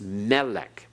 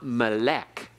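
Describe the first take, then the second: First: The stress is on the first syllable. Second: The stress is on the last syllable. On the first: The speaker calls it right. "Accent on the first syllable" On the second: The speaker calls it wrong. "It's not melech"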